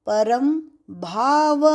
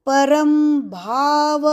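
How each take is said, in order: Both takes have the same delivery.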